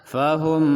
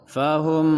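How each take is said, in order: No difference in how they are said.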